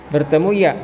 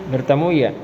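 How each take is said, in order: No difference in how they are said.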